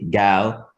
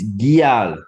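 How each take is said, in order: First: No glide follows the first consonant. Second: A short y-glide follows the first consonant. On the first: The speaker calls it wrong. "Rather than say" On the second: The speaker calls it right. "it's a very short I"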